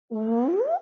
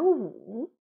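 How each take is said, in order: First: The syllable is said with a rising tone. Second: The syllable is said with a dipping tone. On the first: It means there is none. "二声无" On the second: It means five. "三声呢？"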